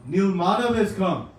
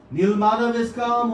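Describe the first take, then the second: First: Said in the usual way. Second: Higher, louder announcing call. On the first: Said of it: "You call and tell them". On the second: Retold or imitated. King's men announce to the hiding devotees, loud call. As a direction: proclaim it so the hidden ones hear.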